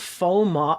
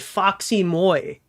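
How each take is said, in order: First: The first part is said as a plain 'fo'. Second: The first part is said as 'foxy'. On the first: The speaker calls it right. "Is that what it's called?" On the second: The speaker calls it wrong. "I've been calling it Foxy Moy"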